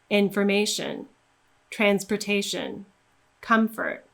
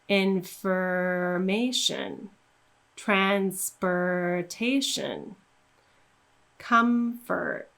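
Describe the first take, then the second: First: The words are said at a faster pace. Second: The words are said at a slower pace.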